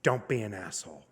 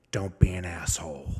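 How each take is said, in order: First: Sincere advice. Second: Whispered stern advice; low whispered mentor's words; hushed quote. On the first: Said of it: "she looked me in the eye, and she said". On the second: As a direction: breathe it like a secret warning. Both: Retold or imitated.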